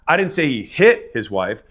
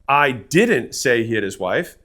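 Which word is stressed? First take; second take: hit; didn't. First: The stress is on the word 'hit'. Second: The stress is on the word 'didn't'.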